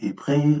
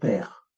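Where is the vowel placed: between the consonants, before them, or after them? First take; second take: before, after; between. First: A vowel comes before and after the consonants. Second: A vowel sits between the two consonants. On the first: The speaker calls it wrong. "ou épré" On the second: The speaker calls it right. "On va mettre le E muet entre les consonnes. On va dire père"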